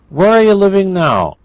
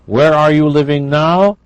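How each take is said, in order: First: The words are compressed and run together. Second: Each word is pronounced clearly and fully.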